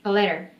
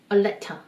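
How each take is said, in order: First: "letter" with a flapped t and an r ending, lerer; American letter. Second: "letter" said as leta, with a plain t and no r; New Zealand letter. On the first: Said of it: "미국식 발음으로 하면". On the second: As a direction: drop the r: "letter" ends in an open a. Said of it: "원어민들은 letter라고 하는 거죠". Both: Shown as a demonstration.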